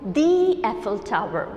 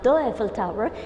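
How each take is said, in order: First: 'The' is said with a long ee vowel. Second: 'The' is said with a short uh vowel. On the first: The speaker calls it right. "Eiffel, eh, is a vowel sound, so we are going to pronounce it" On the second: The speaker calls it wrong. "We are not going to pronounce it"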